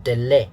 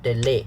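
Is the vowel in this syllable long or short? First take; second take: short; short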